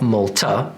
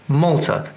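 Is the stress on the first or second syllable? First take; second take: second; first. First: The stress is not on the first syllable. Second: The stress is on the first syllable. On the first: The speaker calls it wrong. "it's not Malta" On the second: The speaker calls it right. "it's Malta. The stress comes at the beginning of the word"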